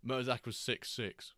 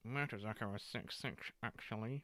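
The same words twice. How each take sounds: First: Said in the usual way. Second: Quiet correction. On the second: Real, not acted.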